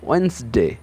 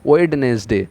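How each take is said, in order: First: The middle d is silent, two syllables only. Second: The middle d and every syllable are sounded. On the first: The speaker calls it right. "এর সঠিক উচ্চারণটা হচ্ছে ওয়েন্সডে" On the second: The speaker calls it wrong. "আমরা বাঙালিরা বেশিরভাগ সময় উচ্চারণ করে ফেলি"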